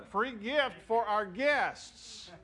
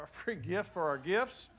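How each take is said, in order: First: "guests" drawn out and carefully articulated; slow, deliberate words, landing clearly on "guests"; careful self-correction. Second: Said in the usual way. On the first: Real, not acted. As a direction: say it at half pace to get "guests" right. Corrects slip slowly and deliberately.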